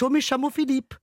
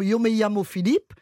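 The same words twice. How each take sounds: First: It is said with an Argentine accent. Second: It is said with a standard Spanish accent.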